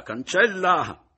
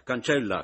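First: Higher, louder and slow, cancella cried out; loud urging shout. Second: Louder, pressing her to wipe it away; raised urging. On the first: Mattia, shouting at Romilda to wipe the kiss away. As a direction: call it out at full voice. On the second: Mattia, urging Romilda to wipe away the kiss. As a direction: push her on. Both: A narrator's reading.

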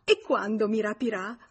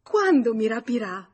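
First: Eager, louder question; thrilled and impatient to know; joyful eagerness. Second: Loud, high, emphatic question on QUANDO; excited, demanding insistence; insistent repeat. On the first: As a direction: ask in delighted anticipation. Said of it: "fece un balzo di gioia". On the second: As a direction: press eagerly, hitting “Quando” high and loud. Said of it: "Ripeté". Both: A narrator's reading.

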